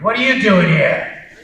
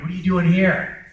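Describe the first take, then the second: First: It sounds alarmed, like confronting an intruder. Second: It sounds reproachful, like scolding an absentee. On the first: Someone is present who should not be. "If somebody just walked in the back who wasn't supposed to be here" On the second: The person should be somewhere else. "you're supposed to be somewhere else"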